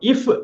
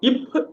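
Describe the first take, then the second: First: The consonant is pronounced like an f. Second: The consonant is pronounced like a p. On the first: The speaker calls it wrong. "இஃப் அப்படின்னு சொல்லக்கூடாது" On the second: The speaker calls it right. "இப் அப்படின்னு சொல்லணும்"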